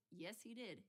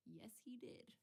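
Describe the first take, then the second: First: Said in the usual way. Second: Hushed conspiratorial whisper. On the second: Real, not acted. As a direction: breathe it like a secret. Whispered repeat of confirmation.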